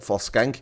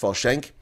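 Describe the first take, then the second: First: The surname is said with an Afrikaans pronunciation. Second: The surname is said with an anglicized pronunciation. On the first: This is how Afrikaners say it. The speaker calls it wrong. "as um, Afrikaners tend to pronounce it" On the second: This is the correct form of the name. The speaker calls it right. "but it's Folshank"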